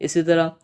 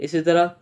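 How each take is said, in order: The two takes are said the same way.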